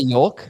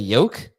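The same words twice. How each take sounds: First: The word is said with an audible L. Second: The word is said with a silent L. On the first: The speaker calls it wrong. "I say yolk" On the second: The speaker calls it right. "You don't pronounce the L in yolk? You just say yolk?"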